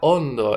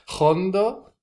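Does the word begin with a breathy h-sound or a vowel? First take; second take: vowel; breathy h-sound. First: The word begins directly with a vowel. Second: The word begins with a breathy h-sound. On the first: "sería hondo en español, con H" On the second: "con acento andaluz eh, se pronuncia hondo"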